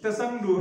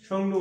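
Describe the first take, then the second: First: তেসাংডু with a spoken "te" before "sangdu"; তেসাংডু pronounced the way it is spelled, T first; T sounded. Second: সংডু said as "songdu", with no T sound at the start; সংডু spoken the correct way, no T before the S; silent T. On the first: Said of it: "টি এর উচ্চারণ হয় না". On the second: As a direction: begin সংডু straight on the S, drop the written T. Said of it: "ওই টি এর উচ্চারণটা হয় না". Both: Shown as a demonstration.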